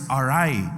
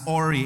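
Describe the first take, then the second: First: The word ends with a 'rye' sound. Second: The word ends with an 'ee' sound. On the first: The speaker calls it right. "But the pronunciation of that word is awry" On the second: The speaker calls it wrong. "Some may pronounce this as Ori"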